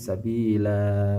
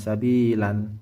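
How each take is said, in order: First: The word ends with a long a vowel. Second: The word ends with an n sound. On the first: The reader pauses and stops on this word. The speaker calls it right. "tapi sabila begitu" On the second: The word is treated as if reading continues. The speaker calls it wrong. "bukan sabilan"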